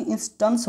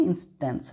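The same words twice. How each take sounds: First: इंस्टेंस as "ins-tuns"; correct "a" sound. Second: इंस्टेंस as "ins-tens"; wrong "e" sound. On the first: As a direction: use "uh", not "e", in इंस्टेंस. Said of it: "यहाँ पे इंस्टेंस होगा". (इंस्टेंस को "इंस्टंस" बोलें) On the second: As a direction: use "e", not "uh", in इंस्टेंस. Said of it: "ना कि इंस्टेंस होगा". (इंस्टेंस में साफ़ "टेंस") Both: Shown as a demonstration.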